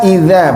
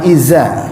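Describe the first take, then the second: First: The middle consonant is a soft dh sound. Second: The middle consonant is a buzzing z sound. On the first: The speaker calls it right. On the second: The speaker calls it wrong.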